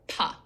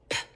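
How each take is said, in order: First: The p sound has a weak vowel after it. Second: The p sound is short with no vowel after. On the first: The speaker calls it wrong. "not park, pa" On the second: The speaker calls it right. "keeping their sounds nice and clipped"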